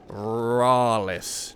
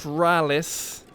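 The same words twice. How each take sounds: First: The first vowel is long. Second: The first vowel is short. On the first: The speaker calls it right. "to me, that is Rallis" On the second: The speaker calls it wrong. "not Rallis"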